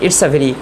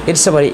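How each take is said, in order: The two takes are said the same way.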